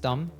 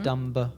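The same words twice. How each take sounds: First: The final B sound is silent. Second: The final B sound is pronounced. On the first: The speaker calls it right. "it has a silent B" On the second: The speaker calls it wrong. "It's not"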